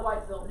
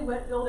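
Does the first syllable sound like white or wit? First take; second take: white; wit. First: The first syllable rhymes with white. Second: The first syllable rhymes with wit. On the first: The speaker calls it wrong. "and not Whitefield" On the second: The speaker calls it right. "we say Whitfield"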